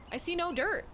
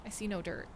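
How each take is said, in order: First: Pitched up, disbelieving; high mock disbelief; higher incredulous repeat. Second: Said in the usual way. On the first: Shown as a demonstration. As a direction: say it again like you can't believe it.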